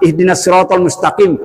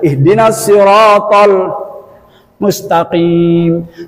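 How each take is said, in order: First: The final vowel is cut short. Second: The final vowel is drawn out long. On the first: The speaker calls it wrong. "Salah lima" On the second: The speaker calls it right. "Semuanya panjang"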